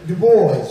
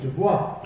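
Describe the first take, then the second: First: The vowels are pronounced in an anglicized way. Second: The vowels are pronounced in the original way. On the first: This is how people commonly say it. The speaker calls it wrong. "because we don't know how to pronounce the vowels correctly, we say Du Bois" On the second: This is how the name really was. The speaker calls it right. "But his name was Dubois"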